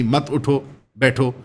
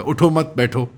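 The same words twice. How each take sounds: First: मत उठो said together, then a break before बैठो; pause after उठो. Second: Said in the usual way. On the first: Shown as a demonstration. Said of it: "अगर कोई इसका उलट चाहे". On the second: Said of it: "ये डबल एंडेड स्टेटमेंट्स".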